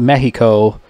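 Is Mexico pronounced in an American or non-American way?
non-American. The word is pronounced in a non-American way.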